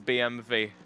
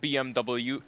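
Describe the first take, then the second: First: The letters are said with German letter names. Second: The letters are said with English letter names. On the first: The speaker calls it right. "Bayerische Motorenwerke" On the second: The speaker calls it wrong. "it's not B M W"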